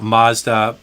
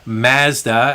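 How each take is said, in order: First: It is pronounced the American way. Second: It is pronounced the Canadian way. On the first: "and not Mazda" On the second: "if we do say Mazda"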